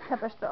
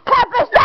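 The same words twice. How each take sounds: First: Said in the usual way. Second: Very high, loud shriek of disbelief; real distraught shriek; hysterical scream. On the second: Real, not acted. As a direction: scream the question in a breakdown. Same question escalates into scream.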